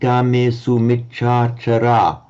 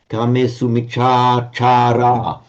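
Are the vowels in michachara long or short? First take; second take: short; long. First: The vowels in michachara are short. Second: The vowels in michachara are long. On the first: The speaker calls it wrong. "which is wrong" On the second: The speaker calls it right. "those three long vowels"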